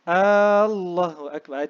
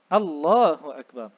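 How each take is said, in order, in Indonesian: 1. Huruf A pertama pada Allah dipanjangkan. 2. Huruf A pertama pada Allah dibaca pendek. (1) "hamzah jalalah pada Allah tidak boleh dipanjangkan... Itu tak sah" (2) "mesti Allahu"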